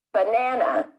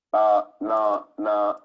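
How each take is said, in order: First: "Banana" with the middle syllable stronger than the others; stress on second syllable. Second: "Ba-na-na" slow, each syllable equally strong and on one level; equal stress on every syllable. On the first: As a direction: lean on the middle of "Banana", light first and last syllables. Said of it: "One syllable is stronger". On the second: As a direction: say "Ba-na-na" evenly, three drawn-out equal beats. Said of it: "pronounce all the syllables the same". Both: Shown as a demonstration.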